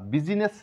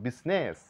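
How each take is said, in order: First: The word has three syllables, starting with 'bi'. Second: The word has two syllables. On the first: The speaker calls it wrong. "বুজিনেস বা বিজিনেস না বলে" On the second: The speaker calls it right. "আমরা বলবো বিজনেস"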